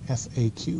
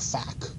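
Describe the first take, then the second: First: It is said as three separate letters. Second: It is said as a single word. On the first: The speaker calls it right. "It's F A Q, frequently asked questions" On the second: The speaker calls it wrong. "please don't call it a F A Q, okay? Don't pronounce that"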